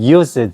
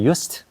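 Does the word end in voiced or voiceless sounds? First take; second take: voiced; voiceless. First: It ends with a buzzing z and d sound. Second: It ends with a hissing s and t sound. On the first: The word is used as a main verb. "기본 동사 쓸 땐 used 해야 돼. 끝까지" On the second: The word is part of the phrase used to. "이때는 used"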